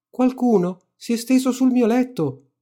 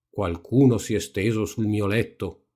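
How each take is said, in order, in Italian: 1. La voce è piccola, acuta e gridata. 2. La voce è grossa e profonda. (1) "gridò con la sua voce piccola piccola" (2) "disse con la sua voce grossa grossa"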